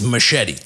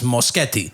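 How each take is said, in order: First: The name is said like machete. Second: The name is said as Moschetti. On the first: This is how most other people say the name. The speaker calls it wrong. "but everybody says machete" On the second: This is how the owner says the name. The speaker calls it right. "My last name is Moschetti"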